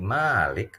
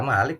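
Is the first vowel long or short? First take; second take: long; short. First: The first vowel is drawn out long. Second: The first vowel is said short. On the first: It means the one who owns. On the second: It means ruler or king.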